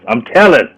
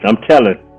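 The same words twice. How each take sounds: First: It is said in an imitated comedian's voice. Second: It is said in his own normal voice.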